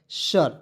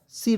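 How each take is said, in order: First: The vowel is an 'er'-like sound. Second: The vowel is a short 'i' sound. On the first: The speaker calls it right. "पढ़ा जाता है, सर" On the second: The speaker calls it wrong. "सिर नहीं पढ़ेंगे, बिल्कुल गलत तरीका है"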